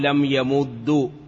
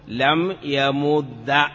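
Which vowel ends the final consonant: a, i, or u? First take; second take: u; a. First: The final consonant ends with a u vowel. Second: The final consonant ends with an a vowel. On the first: The vowel copies the preceding root vowel. "والضم إتباعا للعين" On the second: The lightest vowel is used. "لم يمد على أن الفتح أخف الحركات"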